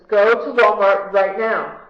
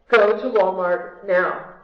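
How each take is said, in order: First: It is said louder and more urgently. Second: It is said at a normal, softer volume.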